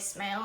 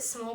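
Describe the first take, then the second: First: The vowel sounds like in 'male'. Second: The vowel sounds like in 'ball'. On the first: "it might be pronounced Holly Smale" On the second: "I've always pronounced it Small"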